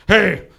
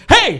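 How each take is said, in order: First: Raised but less piercing greeting; awkward hello to an unknown kid; adult's uneasy greeting, drawn out; wary adult reply. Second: Put-on high, loud child's greeting; piping kid voice, pitched way up; little kid. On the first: Retold or imitated. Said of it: "And I'm like". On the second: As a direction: mimic an excited kid shouting up at an adult. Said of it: "this little kid ran up to me".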